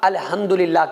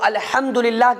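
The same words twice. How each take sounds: First: The h is a soft, plain breath sound. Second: The h is a harsh sound from the throat. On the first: The speaker calls it wrong. "छोटी हा अगर किसी ने निकाली" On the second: The speaker calls it right. "अलहम में बड़ी हा है"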